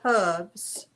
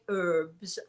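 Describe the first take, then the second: First: The word begins with a clear H sound. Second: The word begins with a vowel, no H. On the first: This is the English way of saying it. "In England, we say herbs... we pronounce the H" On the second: This is the American way of saying it. "in America, you say herbs, as they do in France"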